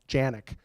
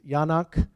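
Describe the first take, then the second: First: The surname is given an anglicized pronunciation. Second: The surname is given a Czech-style pronunciation. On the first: This is how people here usually say the name. The speaker calls it wrong. "we call him Janik" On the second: This is how the name was originally taught. The speaker calls it right. "as I was taught to pronounce it"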